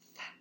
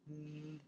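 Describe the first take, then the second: First: The th sound is voiceless, only air. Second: The th sound is voiced, with buzzing. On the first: "It says th, and the air comes through" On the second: "if we turn our voice on"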